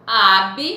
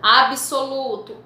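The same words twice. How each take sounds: First: "absoluto" broken into "ab", "so", "lu", "to"; a gap after each syllable of "absoluto"; split into syllables. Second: Said in the usual way. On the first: Shown as a demonstration. Teacher separating consonants, "absoluto" syllable by syllable. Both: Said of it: "estão em sílabas diferentes".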